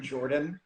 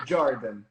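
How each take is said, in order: First: Said in the usual way. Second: "Jordan" as Brazilian "Zhardan"; mock introduction, "Jordan" said the Brazilian way; imitated Brazilian accent. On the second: Guest pretending to introduce themselves, imitated Brazilian accent. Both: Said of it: "so much cooler than Jordan".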